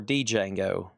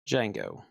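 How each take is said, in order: First: A separate D sound starts the name. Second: No separate D sound starts the name. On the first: The speaker calls it wrong. "Do you say the D" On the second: The speaker calls it right. "No D"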